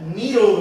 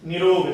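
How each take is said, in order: First: निरोग with a long first 'ee'; correct pronunciation. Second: निरोग with a short first 'i'; mispronunciation demo. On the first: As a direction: say निरोग as nee-rog. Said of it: "निरोग होता है". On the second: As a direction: say निरोग wrongly as ni-rog. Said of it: "देखो ये अशुद्ध है". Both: Shown as a demonstration.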